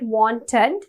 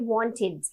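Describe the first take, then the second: First: Every sound is said fully, as it is spelled. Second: The word is said in a reduced everyday form. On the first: The speaker calls it wrong. "we don't call it wanted" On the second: The speaker calls it right. "We call it wanted"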